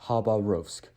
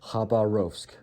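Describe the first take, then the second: First: It is pronounced the English way. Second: It is pronounced the English way.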